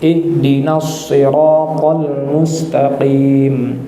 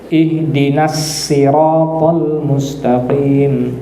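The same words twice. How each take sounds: First: Sirat begins with an emphatic, heavy s sound. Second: Sirat begins with a plain, light s sound. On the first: "menggunakan huruf shad" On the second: "huruf sin"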